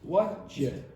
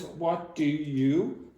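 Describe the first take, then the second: First: The 'do' is dropped and the words run together. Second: Every word is said fully and separately. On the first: "like what you" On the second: "will pronounce what do you"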